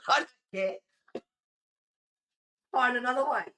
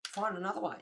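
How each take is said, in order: First: Loud, high and emphatic; bitchy retold refusal. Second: Higher pitched, at ordinary volume; restrained take on a curt dismissal; bitchy retold brush-off. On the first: Streamer re-enacting refusing a woman's plea, loud bitchy refusal. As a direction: raise your voice and dismiss them. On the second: Streamer recalling being bitchy to a pusher, understated brush-off. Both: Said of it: "I was a bit of a bitch".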